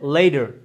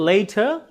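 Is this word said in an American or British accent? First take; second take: American; British. First: The middle sound is a soft d-like flap. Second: The middle sound is a clear t. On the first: "American অ্যাকসেন্টে লেডার" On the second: "British অ্যাকসেন্টে হচ্ছে লেটার"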